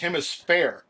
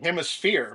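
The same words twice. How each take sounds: First: The word ends with a 'fair' sound. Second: The word ends with a 'sphere' sound. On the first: The speaker calls it right. "but it's hemisphere, F A I R" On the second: The speaker calls it wrong. "I always want to say hemisphere"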